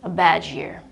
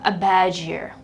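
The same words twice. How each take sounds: First: The d and y merge into a j sound. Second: The same.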